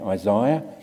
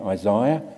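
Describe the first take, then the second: First: Isaiah is said with an Australian pronunciation. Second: Isaiah is said with an Australian pronunciation.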